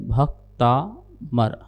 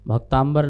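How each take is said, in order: First: The word is said with plain 'm' before 'ar'. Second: The word is said with 'mb' before 'ar'. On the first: The speaker calls it right. "शुद्ध उच्चारण यही है" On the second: The speaker calls it wrong. "लोग जल्दबाजी के कारण या अशुद्धता के कारण भक्तांबर बोल देते हैं। भक्तांबर नहीं है"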